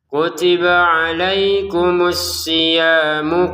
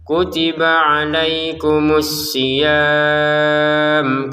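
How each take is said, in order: First: The vowel is short and runs into the next word. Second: The final vowel is held long and the phrase stops. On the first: The reader continues without pausing. "Kalau digabungkan jadi dua harokat" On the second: The reader pauses here. "siyamnya enam harokat ... karena berhenti"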